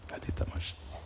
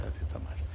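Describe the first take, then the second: First: Whispered aside with a hint of fun. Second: Whispered aside. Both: Real, not acted. Preacher whispering a playful aside to listeners. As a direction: lean in and whisper the joke.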